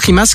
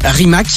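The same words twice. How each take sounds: First: The name is said in its native pronunciation. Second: The name is said as it is spelled. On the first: "Ça se prononce Rimac" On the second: "ça se lit Rimac"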